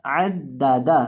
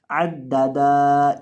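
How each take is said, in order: First: आद दादा with the final da kept short; correct short ending. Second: आद दादा with the final da dragged out; wrongly lengthened ending. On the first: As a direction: hold the middle d, clip final vowel of आद दादा. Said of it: "दाल को आखिर से लंबा नहीं करना". (عَدَّدَ آخری دال لمبی کیے بغیر) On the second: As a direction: stretch the last vowel of आद दादा long. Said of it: "इस तरह नहीं पढ़ना". ("عَدَّدا" آخری دال کو لمبا کھینچ کر) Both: Shown as a demonstration.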